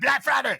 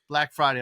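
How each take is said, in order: First: It is said loudly, with lots of energy. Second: It is said flatly, with little energy. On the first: The speaker calls it right. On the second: The speaker calls it wrong.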